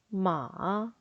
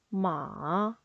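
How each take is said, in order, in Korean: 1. 음이 낮게 내려갔다가 다시 올라가요. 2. 음이 낮게 내려갔다가 다시 올라가요.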